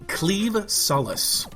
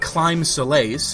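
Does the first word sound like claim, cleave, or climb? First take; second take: cleave; climb. First: The first word rhymes with leave. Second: The first word rhymes with time. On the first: The speaker calls it right. "is actually pronounced cleave" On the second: The speaker calls it wrong. "Not Climb Solace, which is what it looks like"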